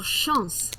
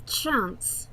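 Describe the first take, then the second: First: Chance said as "Shahnce" with soft sh and nasal a; French pronunciation. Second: Said in the usual way. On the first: Shown as a demonstration. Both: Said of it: "or Chance, as I would say".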